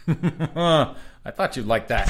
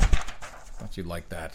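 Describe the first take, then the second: First: High, slow teasing sing-song. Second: Slow, lower, deadpan tease; low teasing voice. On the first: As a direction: tease him, high and drawn out. Teasing cohost, said twice. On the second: Repeat in low voice. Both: Acted.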